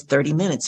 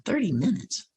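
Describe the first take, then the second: First: Said in the usual way. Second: Soft, raised disbelieving question; hushed baffled retold thought; puzzled inner echo. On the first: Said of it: "So she says". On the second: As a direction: think it aloud, quietly incredulous. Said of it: "And I'm thinking".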